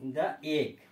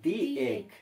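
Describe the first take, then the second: First: The article is said with a short 'thuh' vowel. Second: The article is said with a long 'thee' vowel. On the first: The speaker calls it wrong. "Actually দা নয়" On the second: The speaker calls it right. "ভাওয়েলের আগে দি"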